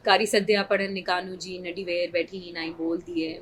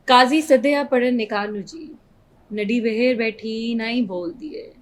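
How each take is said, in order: First: It is recited flatly, without much expression. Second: It is recited with strong dramatic expression.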